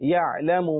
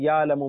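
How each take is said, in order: First: A deep throat consonant is heard after the ya. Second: No deep throat consonant is heard after the ya. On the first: The speaker calls it right. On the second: The speaker calls it wrong.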